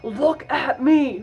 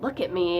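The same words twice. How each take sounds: First: It is yelled loudly, like the Joker. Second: It is said quietly and calmly.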